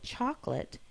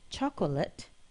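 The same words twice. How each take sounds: First: The middle syllable is dropped. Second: The middle syllable is pronounced.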